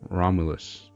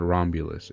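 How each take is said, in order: First: The name is said without a B sound. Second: The name is said with a B sound. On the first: The speaker calls it right. "without the B" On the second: The speaker calls it wrong. "it was not Romulus"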